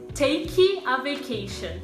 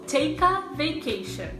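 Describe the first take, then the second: First: Take ends in an ee sound, separated from a. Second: Take and a run together smoothly. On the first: The speaker calls it wrong. "se você separar os sons dessas duas palavras e colocar o som de i no final de take" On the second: The speaker calls it right. "os sons de take e a vão se juntar"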